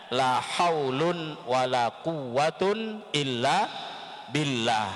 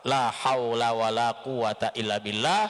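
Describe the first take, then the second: First: The nouns end in an 'un' sound. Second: The nouns end in a plain 'a' vowel.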